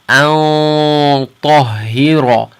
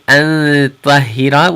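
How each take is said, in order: First: The 'an' is said heavy, with a full sound. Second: The 'an' is said light, with a thin sound. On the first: The speaker calls it right. "because ta is a heavy letter, it's tafkhim" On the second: The speaker calls it wrong. "We're not going to say an tahira"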